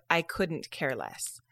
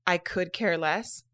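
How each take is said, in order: First: "I couldn't care less" slow, lower, set apart; slow corrected phrase. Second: "I could care less" said slowly and set apart; slow quoted phrase. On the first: Host giving the correct phrase, "couldn't care less" slow and lower. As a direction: slowly make "couldn't" clear, dropping in pitch. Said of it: "instead of". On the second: Host quoting what people say, "could care less" slowly set out. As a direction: spell out "could" clearly and slowly. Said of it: "when people say". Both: Shown as a demonstration.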